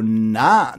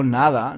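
First: Na said short with the final d dropped, Granada style; clipped Granada na. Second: Nada said in full with every syllable clear; careful nada. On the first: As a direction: drop the ending of nada and say na. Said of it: "no digo na". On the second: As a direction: say nada fully, both syllables. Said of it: "digo nada". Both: Shown as a demonstration.

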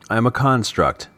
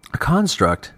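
First: Said in the usual way. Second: Higher-pitched, questioning repeat of A construct; narrator's voice for a puzzled listener; puzzled echo. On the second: A narrator's reading. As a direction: echo it back in surprise, pitch lifted. Ivo questions the man's word.

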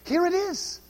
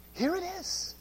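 First: Said in the usual way. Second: Much softer repeat; quiet echo. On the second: Shown as a demonstration. Preacher repeating his point to the congregation, softer echo. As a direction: let it drop into a hushed aside.

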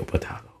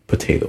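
First: Potato said as puh-TAH-toh; potato, middle syllable "TAH". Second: Potato said as puh-TAY-doh; potato, middle syllable "TAY". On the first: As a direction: say potato with an open ah, as in "spa". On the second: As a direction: say potato with a long a, as in "day". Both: Shown as a demonstration. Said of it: "minor points of pronunciation aside".

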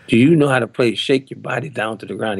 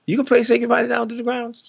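First: Retold challenge with mild attitude. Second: Very high, incredulous question; retold disbelief. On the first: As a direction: put a little doubting attitude into the question. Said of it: "He said it with attitude". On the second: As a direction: mimic someone sitting up in disbelief. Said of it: "he sat up and said".

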